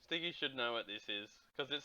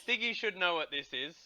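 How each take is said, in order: First: Softer. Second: Said in the usual way. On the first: Real, not acted. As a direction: say it again softly, to himself.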